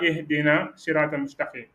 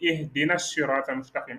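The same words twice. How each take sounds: First: The s of surat is short and weak. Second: The s of surat is doubled and prepared. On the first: The speaker calls it wrong. "c'est très faible" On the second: The speaker calls it right. "avec la shadda au début de surat"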